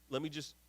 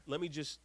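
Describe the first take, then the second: No difference in how they are said.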